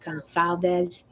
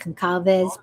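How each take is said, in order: First: The middle consonant is a soft S sound. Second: The middle consonant is a hard K sound. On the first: The speaker calls it right. "but it's pronounced as an S" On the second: The speaker calls it wrong. "it looks like Concalves"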